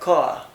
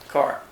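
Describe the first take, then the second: First: The final r sound is dropped. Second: The final r sound is clearly pronounced. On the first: "Non-rhotic in British, that means I say" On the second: "Here we pronounced R. this is American, so it's rhotic"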